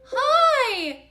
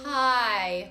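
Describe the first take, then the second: First: The word is said at a high pitch. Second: The word is said at a low pitch. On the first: This is the pitch range for women. "Women, you're up here" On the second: This is the pitch range for men. "Man, you're down here"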